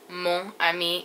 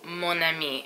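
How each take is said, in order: First: The two words are said apart without linking. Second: The n sound links straight into ami. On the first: The speaker calls it wrong. "you don't say either mon ami" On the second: The speaker calls it right. "with the liaison"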